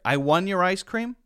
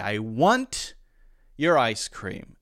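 First: The word 'want' ends with no T at all. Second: The word 'want' ends with a crisp released T. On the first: The speaker calls it wrong. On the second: The speaker calls it right. "And perfectly acceptable if I say, ... And that's fine too"

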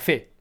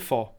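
First: The word ends in an e-like vowel. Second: The word ends in an o-like vowel. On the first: This is the Saigon pronunciation. "A Saigon invece era fe" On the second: This is the northern pronunciation. "nel nord si dice pho"

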